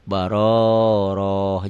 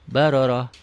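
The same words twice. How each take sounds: First: A vowel in the word is drawn out long. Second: The vowels in the word are kept short. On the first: The speaker calls it wrong. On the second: The speaker calls it right.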